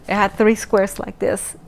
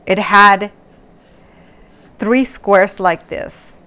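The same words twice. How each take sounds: First: Said in the usual way. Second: Slow, deliberate description; slow, drawn-out. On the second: Shown as a demonstration. To viewers, describing the eye test slowly. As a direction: spell it out slowly. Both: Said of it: "So I'm gonna do it twice".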